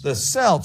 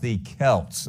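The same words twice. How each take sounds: First: Celts begins with a soft s sound. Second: Celts begins with a hard k sound. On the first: It sounds like the name of a sports team. The speaker calls it wrong. "Are we talking about a basketball team here?" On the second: It names the ancient people. The speaker calls it right. "it's actually pronounced the Celts"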